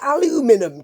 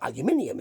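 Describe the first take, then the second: First: It is said the American way, with four syllables. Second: It is said the British way, with five syllables. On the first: The speaker calls it wrong. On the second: The speaker calls it right.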